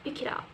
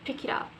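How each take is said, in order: First: The words are joined smoothly and quickly. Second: The same.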